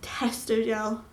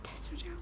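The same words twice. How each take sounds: First: Slow, dazed disbelief; stunned repeat. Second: Whispered in disbelief; awed whisper. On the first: Vlogger stunned by news, slow dazed repeat. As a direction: let the words sink in slowly. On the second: Vlogger stunned by news, awed whisper. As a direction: breathe it out, barely there. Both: Real, not acted. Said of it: "absolute shock".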